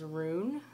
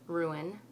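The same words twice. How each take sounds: First: "rune" said as one syllable, like "roon"; "ruin" squeezed into "rune"; imitating one syllable. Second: "ruin" said "roo-in", two syllables; "ruin" with both vowels clear. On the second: Shown as a demonstration. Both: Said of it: "Chris says ruin as rune".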